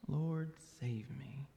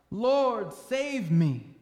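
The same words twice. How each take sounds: First: Soft plea sinking into a whisper; hushed plea. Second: Loud, raised plea for rescue; crying out. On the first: Preacher echoes the sinking disciple's plea, hushed and whispered. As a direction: drop to a whisper by the end. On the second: Sinking disciple cries to Jesus for rescue, crying out loudly. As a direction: cry out higher and louder. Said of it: "cried out". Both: A narrator's reading.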